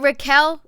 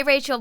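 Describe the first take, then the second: First: "Raquel" said as ruh-KELL; corrected name. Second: "Rachel" said as RAY-chul; mispronounced name. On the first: Host checking a viewer's name, "Raquel" as ruh-KELL. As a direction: stress the second syllable of "Raquel", ruh-KELL, as a question. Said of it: "Is it Raquel?". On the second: Host greeting a viewer by mistaken name, "Rachel" as RAY-chul. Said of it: "Is it Raquel? Sorry". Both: Real, not acted.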